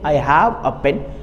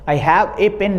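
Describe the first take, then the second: First: The article is a short weak 'uh' sound. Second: The article is a full 'ay' sound. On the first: The speaker calls it right. "ए का उच्चारण होता है अ" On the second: The speaker calls it wrong. "I have ए pen नहीं"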